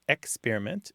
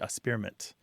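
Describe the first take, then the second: First: The first syllable includes a K sound. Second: The first syllable drops the K sound. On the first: "some people it's experiment" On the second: "some people kind of skip the K sound"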